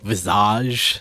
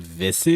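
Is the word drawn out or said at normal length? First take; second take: drawn out; normal. First: The word is stretched out and over-pronounced. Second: The word is said quickly at normal length. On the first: "almost over pronouncing it ... he kind of like prolonged it" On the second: "You mean"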